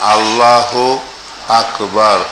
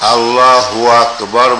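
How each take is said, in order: First: The two words are said separately with a break. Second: The two words are run together without a break. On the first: The speaker calls it right. "আলাদা আলাদা বলবেন" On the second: The speaker calls it wrong. "বলবেন না"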